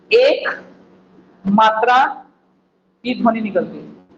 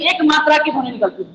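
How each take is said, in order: First: एक and मात्रा said as separate words with long pauses between; slow, spaced out. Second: Said in the usual way. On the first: Shown as a demonstration. Teacher drilling students on one matra, slow and spaced. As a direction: spell out एक, मात्रा, की ध्वनि word by word with gaps. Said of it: "कितनी मात्रा की?". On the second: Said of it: "कितनी ध्वनि?".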